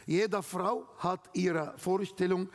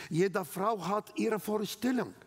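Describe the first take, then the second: No difference in how they are said.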